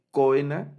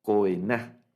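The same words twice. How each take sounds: First: Coena stressed on the middle syllable, coEna; wrong stress on coena, coEna. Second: Coená with stress on the last syllable, coeNÁ; right stress. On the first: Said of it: "ya no lo leemos coena". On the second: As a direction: push the stress onto the final á of coená. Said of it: "sino leemos". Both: Shown as a demonstration.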